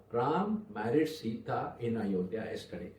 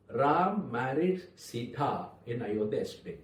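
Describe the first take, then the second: First: Said in the usual way. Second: Emphasize the name Ram, then let the rest settle; stress on Ram. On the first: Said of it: "Look at one sentence". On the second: Shown as a demonstration. Speaker shows an audience how meaning changes, stress on Ram. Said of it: "Ram is emphasized".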